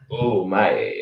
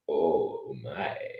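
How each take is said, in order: First: It is said quickly and short. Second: It is said slowly and drawn out.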